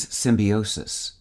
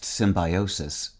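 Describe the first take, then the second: First: "symbiosis" with "bi" said like "bee"; symbiosis as sim-bee-OH-sis. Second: "symbiosis" with "bi" said like "bye"; symbiosis as sim-bye-OH-sis. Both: Shown as a demonstration. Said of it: "also pronounced symbiosis".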